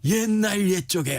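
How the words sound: It is said with strong, dramatic emotion. "좀 더 강력하게 최대한 감정을 활용해봐"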